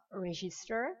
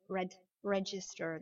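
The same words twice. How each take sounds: First: "register" with a soft French zh for the g; French-style mispronunciation. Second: "register" as red-jister; d before g. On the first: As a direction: say "register" wrongly, no d before the g. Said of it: "on ne dira pas register". (« register » mal prononcé, g doux à la française) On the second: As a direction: break off "red", then "register" with a hard j. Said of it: "imaginez qu'il y a un D". (« register » avec un D avant le G) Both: Shown as a demonstration.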